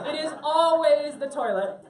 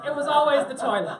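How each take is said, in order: First: Always leaned on, slower and louder through a laugh; laughing stress on always. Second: Laughing. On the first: Telling the class the punchline, stressing always through laughter. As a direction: hammer always home while still laughing. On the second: Punchline of the water story. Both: Real, not acted.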